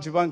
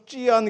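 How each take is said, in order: First: It is pronounced as the Korean reading, jiban. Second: It is pronounced as the Chinese reading, jjian.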